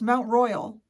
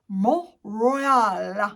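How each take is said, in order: First: It is said with an English pronunciation. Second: It is said with a French pronunciation. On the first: The speaker calls it wrong. "I'm saying them like in my English head" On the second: The speaker calls it right. "Literally like that"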